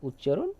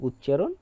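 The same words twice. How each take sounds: No difference in how they are said.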